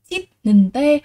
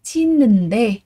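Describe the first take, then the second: First: "chít nần tê" with a plain t sound before the last syllable, shown as the mistake; wrong reading. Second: "Chít nần đê" with a clear d sound at the end and a doubled n; correct reading. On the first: Teacher showing students the reading to avoid, with a t sound. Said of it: "Và đây chúng ta không đọc là". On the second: Teacher giving students the correct reading, slightly louder. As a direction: say "Chít nần đê" with n carried over and a d ending. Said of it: "Vì vậy từ này mình sẽ đọc là gì?". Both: Shown as a demonstration.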